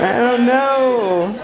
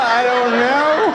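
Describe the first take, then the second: First: Even slower, stretched; slow teasing repeat; drawn out. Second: Slow, lingering I don't know; mock-puzzled slow shrug; drawn out. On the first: Acted. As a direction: hang on each word. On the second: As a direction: stretch the words slowly. Drawn-out repeated aside.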